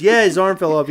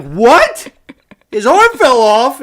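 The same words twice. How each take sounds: First: Said in the usual way. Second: High, loud, drawn-out disbelief; retold shock. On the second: Host re-enacts learning Gasly's arm broke, shocked outcry. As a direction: re-enact a stunned outcry with rising questions.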